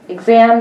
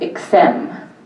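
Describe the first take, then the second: First: The middle consonants are voiced, like gz. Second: The middle consonants are voiceless, like ks. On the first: "we would usually represent in phonetic form this with a G and a Z" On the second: "it becomes uh, voiceless"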